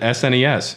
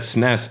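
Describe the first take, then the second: First: It is spelled out as four separate letters. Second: It is pronounced as a single one-syllable word. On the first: "I've always pronounced it S N E S" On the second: "people said S N E S as a word"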